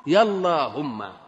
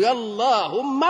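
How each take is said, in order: First: يا اللهم slow, falling to a close on يا; falling call. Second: يا اللهم with a drawn-out rising call on يا. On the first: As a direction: answer the first call, settling down on يا اللهم. (نداء هابط بطيء ينتهي على "يا اللهم") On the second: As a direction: call out يا اللهم slowly, pitch climbing on يا. (نداء صاعد ممدود على "يا" في "يا اللهم") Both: Shown as a demonstration. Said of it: "أقول".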